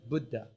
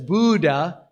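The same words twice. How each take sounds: First: The first syllable has a short 'bud' vowel. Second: The first syllable sounds like the word 'boo'. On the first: The speaker calls it right. "It's really Buddha" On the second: The speaker calls it wrong. "this is what happens when everybody says Buddha, it becomes a Halloween shirt"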